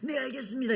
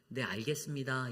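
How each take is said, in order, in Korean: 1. 거칠고 격앙된 어조로 말해요. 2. 차분하고 고른 어조로 말해요. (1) "이러면 이게 뭔가 격한 감정으로 들려지는" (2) "이렇게 말하는 것보다"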